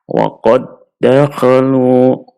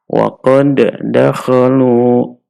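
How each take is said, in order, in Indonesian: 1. D pertama melebur ke dalam d kedua yang dibaca ganda. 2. D pertama dibaca terpisah dengan sedikit pantulan. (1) "Dalnya kita masukkan ke huruf dal yang kedua, kemudian dal yang kedua kita tasydidkan" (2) "tidak boleh dibaca"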